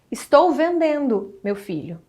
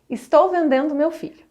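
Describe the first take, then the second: First: There is a pause before the final two words. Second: It is said straight through without a pause. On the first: The son is being addressed, not sold. "da colocação correta da vírgula" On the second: The son is the thing being sold. "Provavelmente que existe uma mãe literalmente vendendo o próprio filho"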